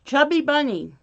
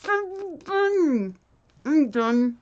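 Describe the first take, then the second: First: One marshmallow in mouth; mouth full. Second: Barely able to speak through marshmallows; cheeks stuffed full. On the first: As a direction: say it around a marshmallow. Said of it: "marshmallow one". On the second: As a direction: mouth crammed full. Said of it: "till we can't say it anymore". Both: Real, not acted.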